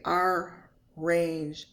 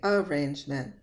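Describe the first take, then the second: First: The R sound is pronounced twice. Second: The R sound is pronounced once. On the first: The speaker calls it wrong. "I don't say arrangements" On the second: The speaker calls it right. "There's only one R sound"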